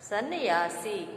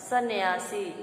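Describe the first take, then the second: Both takes have the same delivery.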